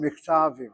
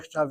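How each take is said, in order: First: The stress falls before the last syllable. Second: The stress falls on the last syllable. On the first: The speaker calls it wrong. "You read it as" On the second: The speaker calls it right. "Should be miktavim. ... hit the last syllable"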